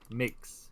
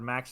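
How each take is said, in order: First: The word is said with an 'i' vowel. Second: The word is said with a plain 'a' vowel.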